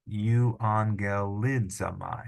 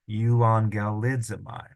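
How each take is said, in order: First: You on ge li za my read slowly as one word; slow blended. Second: Said in the usual way. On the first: Shown as a demonstration. Teacher blending the syllables for students.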